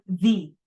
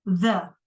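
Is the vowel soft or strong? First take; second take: strong; soft. First: The vowel is full and strong. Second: The vowel is soft and reduced. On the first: The speaker calls it wrong. "bukan the" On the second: The speaker calls it right. "E-nya yang soft"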